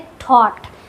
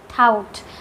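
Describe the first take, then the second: First: The vowel sounds like 'aw' as in law. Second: The vowel sounds like 'ow' as in cow. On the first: The speaker calls it right. "इसको पढ़ा जाता है थॉट" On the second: The speaker calls it wrong. "बहुत सारे बच्चे थाउट पढ़ते हैं"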